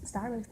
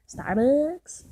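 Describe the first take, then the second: First: Said in the usual way. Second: Starbucks called out loud and rising. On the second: Shown as a demonstration. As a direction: call out Starbucks with a rising shout.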